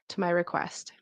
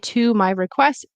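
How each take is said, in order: First: The word to has a reduced vowel. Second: The word to has a full vowel.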